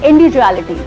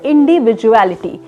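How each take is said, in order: First: Heavily accented, with syllables half swallowed. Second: Every syllable of the word is said clearly. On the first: The speaker calls it wrong. "ना कि" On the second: The speaker calls it right. "जो proper word है वो होता है"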